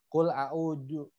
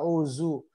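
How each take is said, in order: First: The middle consonant is a plain d sound. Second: The middle consonant is a z sound. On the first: "Jangan nyasar ke huruf dal" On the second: "Apalagi nyasar ke huruf za"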